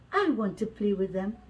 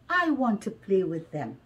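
The two takes are said the same way.

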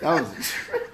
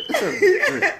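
First: Said in the usual way. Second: Squeaky high movie-character voice; high-pitched character voice. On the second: Retold or imitated. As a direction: pitch it way up, laughing. Movie line repeated.

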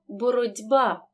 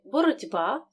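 First: Slow «боротьба», ть said as дь; voiced ть. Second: Said in the usual way. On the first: Shown as a demonstration. Teacher models the spoken form, slow, ть voiced. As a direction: say «боротьба» slowly as borod'ba. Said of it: "переходить у парний дзвінкий". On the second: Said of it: "глухий «т» перед дзвінким".

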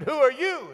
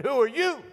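First: High-pitched challenge into the woods; boy calling out. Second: High-pitched copycat question; mocking echo reply. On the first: Retold or imitated. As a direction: call out high to a hidden stranger. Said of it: "And I said". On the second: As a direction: parrot it back high, like an echo. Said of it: "And he said".

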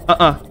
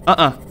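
Both takes have the same delivery.

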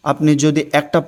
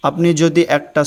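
The two takes are said the same way.

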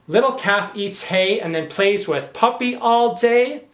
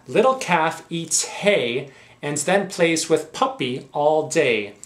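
First: Incredulous. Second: Said in the usual way. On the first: Acted. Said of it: "for a pack of lies". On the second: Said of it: "Let's read the back too".

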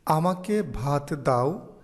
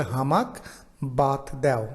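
First: Said in the usual way. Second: হামাক বাত দেও with the dialect হ and unaspirated ব; কামরূপী উচ্চারণে হামাক বাত দেও; Kamrupi dialect. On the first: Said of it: "যেমন". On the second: Shown as a demonstration. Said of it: "Kamrupi ভাষায় সেটাকে বলে".

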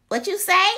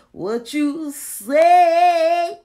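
First: High, loud "What you say?" in spoken surprise; surprised exclaim. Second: Slow, loud sung "What you say?"; sung, stretch "What you say?" into a drawn-out tune. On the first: Real, not acted. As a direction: blurt out "What you say?" as a sharp question. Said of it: "What you say? (sung after)". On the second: Pretend. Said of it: "What you say? (spoken before)".

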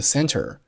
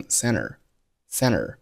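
First: Said in the usual way. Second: "center" said as "senner", the t dropped after n; "center" with the n running straight into the vowel, no t; center without the t. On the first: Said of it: "比如说像是center". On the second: Shown as a demonstration. Teacher showing learners how Americans say "center", t dropped. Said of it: "很多美国人会读成center".

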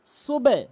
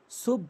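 First: "সুবে" higher and louder, with short e after b; correct open syllable. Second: "সুব" ending shut on b, no vowel after it; wrong closed syllable. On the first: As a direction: release the b clearly into e in "সুবে". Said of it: "সঠিক উচ্চারণ". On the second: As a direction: stop on the b in "সুব". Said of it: "সুব ভুল উচ্চারণ". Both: Shown as a demonstration.

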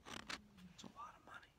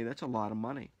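First: Whisper. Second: Said in the usual way. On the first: Real, not acted. Repeat whispered longingly.

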